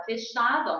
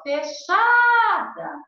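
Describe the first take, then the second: First: Said in the usual way. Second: Fechada with CHA stretched high and loud; stress on CHA. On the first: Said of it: "a sílaba tônica é a penúltima". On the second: Shown as a demonstration. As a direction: hold the middle syllable of fechada, very slow. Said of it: "então, a sílaba tônica".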